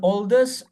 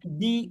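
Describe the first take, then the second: First: 'The' is said with a short 'thuh' vowel. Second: 'The' is said with a long 'thee' vowel. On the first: The speaker calls it wrong. "Don't don't say" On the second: The speaker calls it right. "if the word starts with vowel, how do you pronounce this? D"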